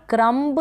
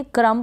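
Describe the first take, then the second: First: क्रम्ब with an audible b at the end; wrong sounded B. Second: क्रम ending on m, no b; क्रम with the final b left silent. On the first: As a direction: say क्रम्ब, releasing a b after the m. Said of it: "क्रम्ब नहीं पढ़ेंगे". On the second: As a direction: say क्रम and stop on the m. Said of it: "क्रम पढ़ेंगे". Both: Shown as a demonstration.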